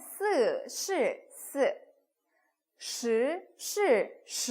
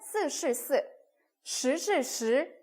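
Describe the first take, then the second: First: The syllables are said slowly. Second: The syllables are said quickly. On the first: "천천히 처음에는" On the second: "빨리 하다 보면은"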